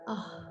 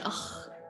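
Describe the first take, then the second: First: The breath sound is soft and gentle. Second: The breath sound is strong and harsh. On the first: The speaker calls it right. "It's just soft" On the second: The speaker calls it wrong. "Not like German"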